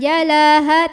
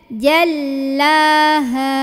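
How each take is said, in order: First: The L sound is short and light. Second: The L sound is pressed and held. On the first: The speaker calls it wrong. "jangan jalaha" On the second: The speaker calls it right. "Lam tekan"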